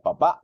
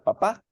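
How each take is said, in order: First: The word ends with a glottal catch after the vowel. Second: The word ends on a plain stressed vowel. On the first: "si yo la coloco después de la A, entonces ... diría papá" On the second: "está la tilde sobre la A ... no diría papá"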